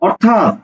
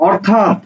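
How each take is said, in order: Both takes have the same delivery.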